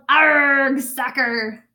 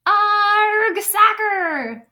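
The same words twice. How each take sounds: First: Loud pirate arg; hearty captain yell. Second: Loud, much higher crew echo; squeaky crew shout; crew yelling. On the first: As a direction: bellow it after the kick. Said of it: "Braid Beard kicked the ball and yelled". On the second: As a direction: cheer it like the crew. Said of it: "the crew yelled". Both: Acted.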